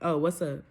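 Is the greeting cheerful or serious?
serious. The greeting sounds flat and dead serious.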